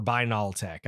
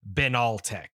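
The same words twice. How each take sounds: First: Binaltech with a long i, "BINE-all-tek"; BINE-al-tech pronunciation. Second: Benaltech with a short e, "BEN-all-tek"; BEN-al-tech pronunciation. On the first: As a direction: say Binaltech starting like "bind" without the d. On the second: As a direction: say Benaltech starting like the name Ben. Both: Shown as a demonstration. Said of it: "I mispronounce Japanese words".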